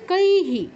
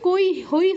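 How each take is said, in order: First: The h syllable ends with an i sound. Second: The h syllable ends with an oi sound. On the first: The speaker calls it right. "কি হবে কৈহি" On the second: The speaker calls it wrong. "এটা কিন্তু কই হই হবে না"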